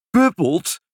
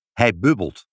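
First: High, astonished exclamation. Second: Said in the usual way. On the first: A narrator's reading. Nurse echoes father's word, astonished. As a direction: echo it back in amazement. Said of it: "riep de verwonderde zuster". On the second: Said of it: "zei vader eenvoudig".

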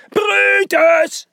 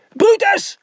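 First: Long, drawn-out high yell of a name; shout. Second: Short high-pitched yell of a name; shout. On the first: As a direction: holler it, stretching the vowels. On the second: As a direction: yell it in one quick burst. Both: A narrator's reading. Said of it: "schreeuwde hij".

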